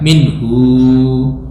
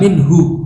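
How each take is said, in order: First: The final vowel is lengthened into a long u. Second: The final vowel is short, not lengthened. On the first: This is the reading of one particular reciter. "Ibnu Katsir membacanya minhu ... yasilu al-ha ... biwawin" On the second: This is the reading of most reciters. "Semua imam membaca minhu"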